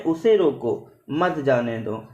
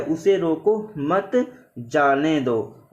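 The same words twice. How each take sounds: First: "उसे रोको", pause, then "मत जाने दो" together; measured reading, मत joined to जाने दो after a stop. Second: "उसे रोको मत" together, pause, then "जाने दो"; measured reading, clear stop after मत. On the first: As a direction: slowly, break the sentence after रोको, before मत. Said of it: "और दूसरे में". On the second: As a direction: slowly, break the sentence after मत, before जाने. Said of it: "विराम चिन्ह के कारण यहाँ का अर्थ ही बदल गया". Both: Shown as a demonstration.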